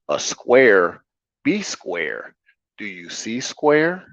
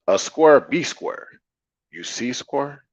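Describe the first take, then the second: First: It is spoken in clearer, more standard speech. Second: It is spoken in a Saint Louis dialect. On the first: "outside of my Saint Louis dialect, I'll just say it in a way of more clarity" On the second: "my Saint Louis dialect"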